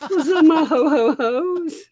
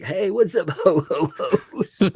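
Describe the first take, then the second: First: High squealing Santa greeting, laughing; jolly ho ho ho. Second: High laughing Santa greeting; jolly ho ho ho. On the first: Pretend. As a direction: giggle through a loud Santa ho ho ho. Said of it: "I need to do a rap Santa". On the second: Retold or imitated. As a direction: chuckle through a Santa ho ho ho. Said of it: "that's my ecosystem greeting".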